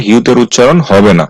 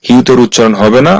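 No difference in how they are said.

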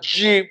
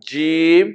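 First: "জিম" pushed out hard and stiff; forced, tense pronunciation. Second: "জিম" eased out and held evenly; natural, relaxed pronunciation. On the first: Teacher showing how not to say "জিম", forced and stiff. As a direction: overdo "জিম" with tense, pressed articulation. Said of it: "শক্ত করে বলবেন না". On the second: Teacher modelling "জিম" for learners, natural and relaxed. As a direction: say "জিম" long, without any forcing. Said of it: "খুব স্বাভাবিকভাবে". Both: Shown as a demonstration.

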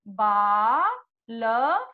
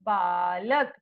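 First: Drawn-out word. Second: Said in the usual way. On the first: Shown as a demonstration. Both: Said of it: "तो आप क्या लिखोगे?".

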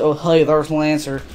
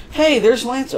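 First: Said in the usual way. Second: "Hey" jumps high, bright greeting; excited. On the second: Real, not acted. Gamer spotting Lancer on screen, excited. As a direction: spot him and light up on "Hey".

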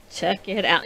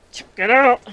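First: Said in the usual way. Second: Higher, louder eager call; excited showing off. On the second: Real, not acted. Knitter showing her finished sweater to viewers, excited. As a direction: present it proudly, voice lifted.

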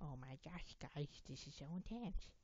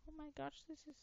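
First: Lightly put-on slurred voice; mock-intense, with slushy s sounds. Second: Very high put-on voice; different voice. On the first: Gamer telling viewers it's intense, in a lightly put-on voice. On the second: Gamer trying out a different voice, pitched very high. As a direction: squeak it out far above normal pitch. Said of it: "I wanna talk in a different voice".

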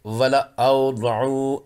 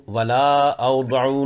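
First: वला औदऊ slow, alif silent; correct reading. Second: वला औदऊ with an extra alif sounded; wrong reading. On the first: (वला औदऊ सही, अलिफ खामोश) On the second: (वला औदऊ गलत, फालतू अलिफ के साथ) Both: Shown as a demonstration. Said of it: "नहीं पढ़ेंगे".

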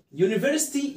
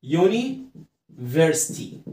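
First: Said in the usual way. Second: Very slow, stretched "يوني", pause, then "فرستي"; slow syllable split. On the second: Shown as a demonstration. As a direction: sound out "يونيفرستي" in two drawn-out halves. Teacher sounds out the new word. (نطق "يونيفرستي" ببطء شديد ومقطّع)

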